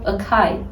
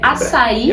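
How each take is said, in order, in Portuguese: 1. A consoante do meio soa como k. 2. A consoante do meio soa como s.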